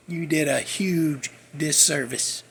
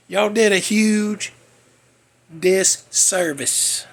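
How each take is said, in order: First: Leise, langsame Wiederholung mit Druck auf "huge"; quiet slow repeat. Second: Jedes Wort langsam betont: "did" und "disservice" gedehnt; slow emphatic accusation. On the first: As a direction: drop it low and lean on "huge". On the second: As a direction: hammer each word slowly. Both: Real, not acted. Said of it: "I ain't the first one to say it".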